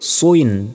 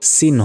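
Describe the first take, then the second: First: The syllable sounds like rounded 'swin'. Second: The syllable sounds like plain 'sin'. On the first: The speaker calls it right. "সদ দুই জের সুইন" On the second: The speaker calls it wrong. "সদ দুই জের সিন হবে না"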